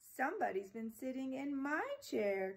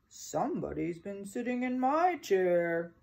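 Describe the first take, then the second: First: It is cried in a tearful baby-bear voice. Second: It is growled in a gruff father-bear voice.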